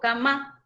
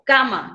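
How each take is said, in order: First: The stress is on the last syllable. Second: The stress is on the first syllable. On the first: The speaker calls it wrong. "no digo cama" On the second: The speaker calls it right. "yo digo cama"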